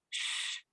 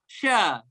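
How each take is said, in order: First: The sh sound is hushed with no vowel. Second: The sh sound is followed by a short vowel. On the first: The speaker calls it right. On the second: The speaker calls it wrong.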